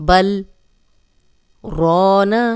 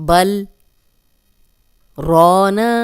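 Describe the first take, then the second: Both takes have the same delivery.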